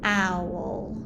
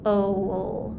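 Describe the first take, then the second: First: The vowel is pronounced like 'ow'. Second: The vowel is pronounced like 'oh'. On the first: The speaker calls it right. "Now I'm going to try the less common sound" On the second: The speaker calls it wrong. "I'm going to try the more common sound"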